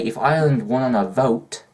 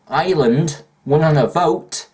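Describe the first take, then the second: First: Said in the usual way. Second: Ireland won on a vote, higher, louder and slower; proud insistence; emphatic. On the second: Shown as a demonstration. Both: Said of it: "repeated for emphasis".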